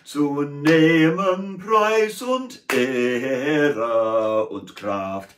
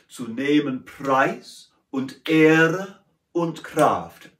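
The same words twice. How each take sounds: First: The verb nehmen carries heavy stress. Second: The verb nehmen is light and unstressed.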